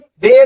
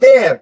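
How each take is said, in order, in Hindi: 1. पहली ध्वनि कठोर 'd' है। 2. पहली ध्वनि में जीभ दांतों के बीच होती है। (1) "ऐसे ही देयर नहीं होता" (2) "इट इज देयर"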